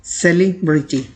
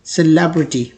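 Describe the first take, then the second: First: सेलिब्रिटी slowly, split into "seli" and "briti"; सेलिब्रिटी in two broken chunks, the common error; wrong pronunciation. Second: सेलिब्रिटी as "suh-LEB-rity"; सेलिब्रिटी smoothly, as one word with its stress on "leb"; correct pronunciation. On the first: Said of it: "लोग commonly पढ़ते हैं". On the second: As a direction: say सेलिब्रिटी with a weak first syllable and stress on "leb". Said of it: "इसे पढ़ा जाता है". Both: Shown as a demonstration.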